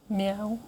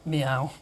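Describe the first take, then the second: First: It is said at a higher pitch. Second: It is said at a lower pitch.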